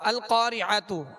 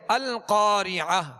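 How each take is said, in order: First: The word ends with a 't' plus 'u' vowel. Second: The word ends with a silent-vowelless 'h' sound. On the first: The recitation continues without stopping on this word. "हमने यहाँ वक्फ नहीं किया तो इसकी हरकत पढ़ेंगे, पेश पढ़ेंगे" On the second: The recitation stops on this word. "हाय साकिना से बदल कर वक्फ करेंगे"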